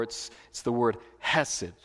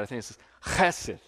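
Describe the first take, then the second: First: Hesed with a plain soft h. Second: Chesed said with a rasped ch from the throat; chesed, the ch scraped like a Hebrew kh; chesed with throat sound. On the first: Preacher's first try at the word: hesed with a plain h. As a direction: say hesed with an English h. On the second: Preacher corrects his own Hebrew: chesed, the ch rasped like kh. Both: Shown as a demonstration. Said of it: "I didn't say it quite right".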